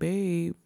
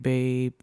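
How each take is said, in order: First: It sounds soft and affectionate. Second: It sounds exasperated and scolding. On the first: Talking sweetly to a romantic partner. "if it's like my boo, I'd be like" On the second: Scolding a friend for a bad decision. "if me and my friends talking and they make a bad decision, I'd be like"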